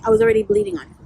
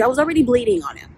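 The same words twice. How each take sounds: First: Pitched way up for emphasis; high incredulous echo; high mock repeat. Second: Said in the usual way. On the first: Shown as a demonstration. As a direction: say it again, much higher and mocking. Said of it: "You know what I mean?".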